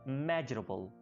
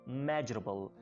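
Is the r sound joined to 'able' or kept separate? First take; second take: joined; joined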